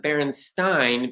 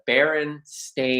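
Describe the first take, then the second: First: The last syllable is said like 'stein'. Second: The last syllable is said like 'stain'. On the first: This is the common mistaken version. The speaker calls it wrong. "most people think it's the Berenstein" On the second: This is the actual name. The speaker calls it right. "Berenstain is B E R E S T A I N"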